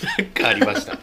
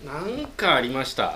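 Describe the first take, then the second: First: High laughing. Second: Slower, lower repeat of なんかありました. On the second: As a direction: drag out なんかありました in a low voice. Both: Shown as a demonstration.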